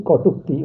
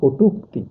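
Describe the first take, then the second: First: কটূক্তি with open aw, "kaw-tuk-ti"; as written. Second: কটূক্তি with round o, "ko-tuk-ti"; as pronounced. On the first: Teacher reads out what is written, কটূক্তি with an open first vowel. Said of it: "লিখছি". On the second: Teacher answers how it is pronounced, কটূক্তি with a round o. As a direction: say কটূক্তি with the first vowel closed to o. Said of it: "উচ্চারণ কি?". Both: Shown as a demonstration.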